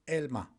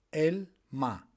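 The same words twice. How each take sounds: First: Said in the usual way. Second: "Elma" split in two, el, ma; syllable by syllable. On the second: Shown as a demonstration. Teacher showing learners the word for apple, "Elma" syllable by syllable.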